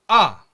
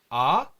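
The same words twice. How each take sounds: First: The pitch falls sharply and briefly. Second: The pitch rises sharply upward. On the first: "짧고 굵게 어, 끊어서 내는 소리를 사성" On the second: "갑자기 이렇게 위로 올라가는 발음을 하는 거예요"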